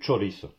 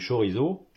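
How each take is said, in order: First: The ch sounds like tch, the z is voiceless. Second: The ch sounds like sh, the z is voiced. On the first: The speaker calls it right. "on mange du chorizo" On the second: The speaker calls it wrong. "on ne mange pas du chorizo"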